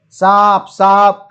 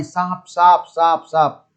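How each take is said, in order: First: Loud frightened cry of "સાપ"; scared shouting. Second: Said in the usual way. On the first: Retold or imitated. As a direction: shout "સાપ" in alarm, louder. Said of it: "ગભરાયેલા દોસ્તોએ ખૂબ બૂમો પાડી". (ગભરાઈને મોટેથી બૂમ) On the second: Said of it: "ખૂબ બૂમો પાડી".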